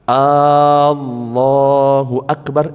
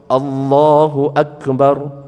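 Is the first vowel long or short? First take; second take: long; short. First: The first vowel is drawn out long. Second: The first vowel is said short. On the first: It asks whether God is the Greatest. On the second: God is the Greatest.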